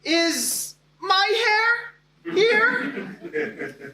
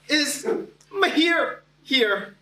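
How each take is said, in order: First: High teacher voice misreading the name as "my hair"; mispronounced name. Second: "my hair" squashed toward "ma-HEER", high voice; teacher voice muddling "my hair" into a rhyme with "here"; mispronounced name. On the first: Teacher stumbling through attendance, mispronouncing "my hair". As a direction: say "my hair" as two drawn-out words, high. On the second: Teacher retrying a student's name at attendance, mispronouncing "my hair". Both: Retold or imitated. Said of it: "because she paused and said".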